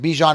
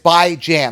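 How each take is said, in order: First: It starts with 'bee' and ends like 'john'. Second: It starts with 'bye' and ends like 'ran'. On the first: The speaker calls it wrong. "Bijan is not right. It's not B E E J H A O N" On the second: The speaker calls it right. "like bi-weekly, and Jan is in January, as in ran"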